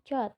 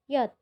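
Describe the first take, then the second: First: The letter starts with a 'j' sound. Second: The letter starts with a 'y' sound. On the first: The speaker calls it wrong. "bukan J" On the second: The speaker calls it right. "J di bahasa Jerman itu dibaca Y"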